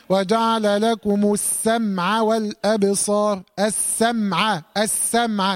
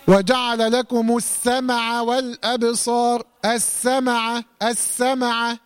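First: Slow chant, السمع as "as-sam-a"; correct still mim. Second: Slow chant, السمع as "as-sama-a"; common recitation mistake. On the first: Teacher models correct verse, still mim in السمع. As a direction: close the mim firmly in السمع, no vowel after. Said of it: "أنا ما أقولش إيه". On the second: Teacher shows a common error, voweled mim in السمع. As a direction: add a short vowel after the mim of السمع. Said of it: "وهذا خطأ شائع أيضًا". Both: Shown as a demonstration.

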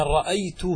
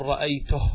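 First: رأيته with the last vowel drawn out as a long "hū"; final waw-glide. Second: رأيته stopped on a vowelless h; pausal silent-vowel ha. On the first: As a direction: linger on a long "oo" ending رأيته. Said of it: "لكنها في النطق إيش؟ واو". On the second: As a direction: end رأيته as "ra'aytuh", no "oo". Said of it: "تقف على الهاء". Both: Shown as a demonstration.

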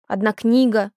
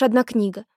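First: Put-on pouting child echoing the words; sulky. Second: Mother's matter-of-fact brush-off; dismissive. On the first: Ulka echoes mother's words back, sulkily. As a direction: throw it back with a pout. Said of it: "надулась Улька". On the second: Mother waves away daughter's complaint, dismissively. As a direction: make light of the loss. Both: A narrator's reading.

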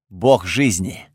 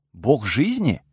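First: Low, slow, measured statement; weighty reveal. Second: Surprised echo, pitch swooping up on "жизни"; disbelieving question. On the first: Готфред revealing who sits in the Артазар, weighty. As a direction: let the revelation land slowly. Solemn revelation after a pause. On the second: Narrator stunned by the news of the deity, disbelieving. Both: Acted.

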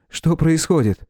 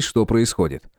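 First: Raised, worried question; higher anxious young man. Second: Said in the usual way. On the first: A narrator's reading. Neighbour asks anxiously. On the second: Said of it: "narration take".

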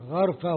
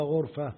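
First: غرفة with an "a" after the ghayn, "gharfa"; fatha on غرفة. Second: غرفة with a "u" after the ghayn, "ghurfa"; damma on غرفة. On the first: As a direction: open the first vowel of غرفة to a short "a". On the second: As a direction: round the first vowel of غرفة to a short "u". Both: Shown as a demonstration. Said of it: "بضم الغين وفتحها".

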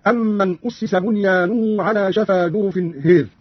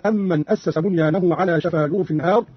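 First: Drawn-out, "هير" with long a tilted towards e; "أسس" as ussisa, ending on a fronted "هير"; Qalun imala. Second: Said in the usual way. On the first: Shown as a demonstration. Teacher demonstrates imala, long vowel in "هير" bent towards e. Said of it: "مع إمالة الألف التي بعد الهاء". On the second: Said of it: "مع إمالة الألف".

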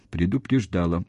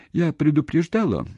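First: Mildly mournful agreement; sad confirmation. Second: High, insistent demand for confirmation; high-pitched accusing question; challenging question. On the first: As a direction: concede it sadly, without any lift. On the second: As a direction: press him with a sharply raised question. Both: A narrator's reading. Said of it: "печально подтвердил он".

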